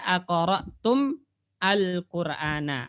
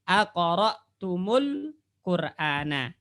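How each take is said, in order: First: The m ends silently before the next word. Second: The m takes a u vowel, joining the next word.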